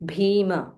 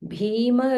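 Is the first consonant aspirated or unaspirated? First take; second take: aspirated; aspirated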